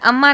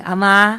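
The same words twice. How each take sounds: First: The word is said short and plain. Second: The word is said long and drawn out. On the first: "पर अम्मा नहीं बोलेंगे" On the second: "अम्मा ऐसे। ... बड़ा लंबा करके बोलते हैं ये।"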